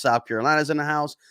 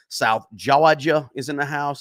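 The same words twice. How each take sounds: First: Said in the usual way. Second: A light, slowed Southern US accent on Georgia. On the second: Shown as a demonstration. Greeting South Georgia viewers in the chat, playful Southern accent. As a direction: lean into a Southern drawl for the shout-out, Georgia said like Jawjuh. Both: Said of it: "That's my, my southern accent".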